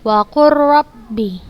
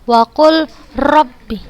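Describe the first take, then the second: First: The L sound merges fully into the R. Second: The L sound is pronounced before the R. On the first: The speaker calls it right. "langsung kita masukkan ke huruf yang keduanya" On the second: The speaker calls it wrong. "Bukan Ustazah baca wa qul rabbi. Bukan"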